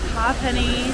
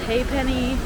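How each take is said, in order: First: The first syllable sounds like 'ha'. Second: The first syllable sounds like 'hay'. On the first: This is how the local guide says it. The speaker calls it right. "the native Irishmen that we had for our tour guide said it was Ha'Penny" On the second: This is how other people say it. The speaker calls it wrong. "other people say it Haypenny"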